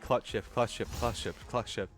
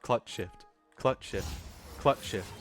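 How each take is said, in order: First: It is said fast, in quick succession. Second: It is said slowly, with gaps between.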